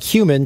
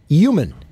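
First: The word begins with a clear h sound. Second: The word begins without any h sound.

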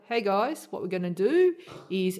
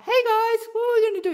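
First: The voice is lowered and slower. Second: The voice is high and shrill.

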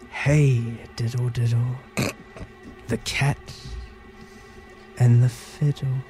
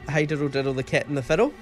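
First: It is said in a scary, creepy voice. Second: It is said in a normal voice.

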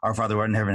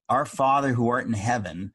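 First: It is rattled off quickly and carelessly. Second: It is said slowly and with feeling. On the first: The words are recited without caring what they mean. The speaker calls it wrong. "if you read it really quickly, like you don't care what it means" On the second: The words are made one's own prayer. The speaker calls it right. "But if you pray it"

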